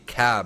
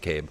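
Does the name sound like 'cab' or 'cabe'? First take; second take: cab; cabe. First: The name ends in a short vowel. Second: The name ends in a long vowel. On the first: The speaker calls it wrong. "It's a silent E" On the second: The speaker calls it right. "No, it's not. It's probably Cabe"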